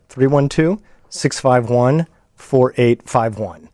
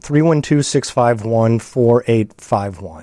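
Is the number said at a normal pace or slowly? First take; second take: slowly; normal pace. First: The number is said slowly and carefully. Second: The number is said at a normal pace.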